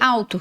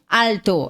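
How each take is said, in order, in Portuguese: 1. O L é falado como U. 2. O L é falado como L claro. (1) "que fica com som de U" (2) "a gente não fala alto"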